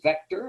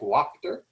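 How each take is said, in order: First: The name is said with its German pronunciation. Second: The name is said as English spelling suggests. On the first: The speaker calls it right. "the correct pronunciation is Vector" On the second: The speaker calls it wrong. "it might look to the American eye like Wachter"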